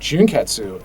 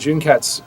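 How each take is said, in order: First: The final u vowel is clearly pronounced. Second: The final u vowel is silent. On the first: The speaker calls it wrong. "we would have a tendency to pronounce the U" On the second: The speaker calls it right. "pronounced without the hard U at the end"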